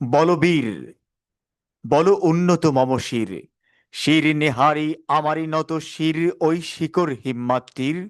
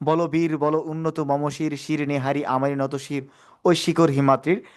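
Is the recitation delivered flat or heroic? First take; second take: heroic; flat. First: It is recited in a rousing, heroic manner. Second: It is recited flatly, without rousing energy. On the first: It inspires and encourages the listener. The speaker calls it right. "আমাদেরকে বীর রসে বলবো আমরা" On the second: It does not inspire or encourage anyone. The speaker calls it wrong. "তাহলে কিন্তু উৎসাহ হচ্ছে না"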